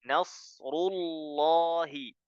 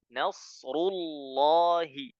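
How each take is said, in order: No difference in how they are said.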